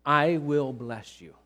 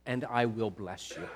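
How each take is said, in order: First: Even slower, stress on I; repeating God's promise, slower and stronger; emphatic repetition. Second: Slow, hushed and weighty; God's promise to Abraham, slow and solemn; solemn divine promise. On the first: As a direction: lean hard on "I" in "I will bless you". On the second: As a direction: let each word land slowly. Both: Acted. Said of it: "Here's God saying".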